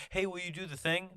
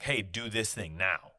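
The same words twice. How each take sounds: First: Higher, sweetly asking a favour; polite request. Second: Slow, flat order like a boss; bossy demand. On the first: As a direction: ask nicely, pitch up. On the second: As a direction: give a curt command, slowly. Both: Retold or imitated. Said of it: "It's not like".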